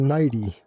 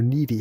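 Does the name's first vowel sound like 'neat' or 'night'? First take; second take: night; neat. First: The first vowel sounds like the word night. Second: The first vowel sounds like the word neat. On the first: "Is it like night" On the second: "or is it like neat?"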